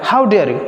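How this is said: It is said with strong, exclaiming feeling.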